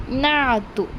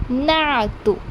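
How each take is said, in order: No difference in how they are said.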